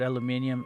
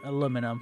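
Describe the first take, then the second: First: It is said the British way, aluminium. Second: It is said the American way, aluminum.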